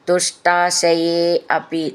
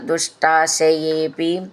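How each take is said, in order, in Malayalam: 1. വാക്കുകൾ വെവ്വേറെ വാക്കുകളായിട്ടാണ് പറയുന്നത്. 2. വാക്കുകൾ ഒന്നായി ചേർന്ന് ഒരൊറ്റ രൂപമായിട്ടാണ് പറയുന്നത്.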